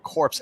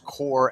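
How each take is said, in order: First: The word ends with a 'ps' sound. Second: The word ends without a 'ps' sound. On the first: It means a dead body. The speaker calls it wrong. "that word you keep saying is not corpse as in dead body" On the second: It means a military unit. The speaker calls it right. "it's core"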